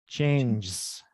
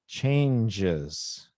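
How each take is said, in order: First: The ending is not its own syllable. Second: The ending is a separate extra syllable. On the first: The speaker calls it wrong. "So what I heard was changes" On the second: The speaker calls it right. "But what I should hear is changes"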